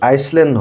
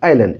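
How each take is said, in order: First: The s sound is pronounced. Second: The s sound is silent. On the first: The speaker calls it wrong. "এইটো আইচলেণ্ড নহয়।" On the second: The speaker calls it right. "এছটো silent letter."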